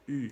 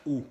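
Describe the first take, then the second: First: "U" as a fronted, rounded ee; French "U", between ee and oo; French U sound. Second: "U" as a rounded back oo; "U" with the tongue back, as the wrong example; Spanish U sound. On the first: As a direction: say "U" with lips rounded and tongue forward. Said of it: "que se pronuncia U". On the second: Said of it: "no se pronuncia U". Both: Shown as a demonstration.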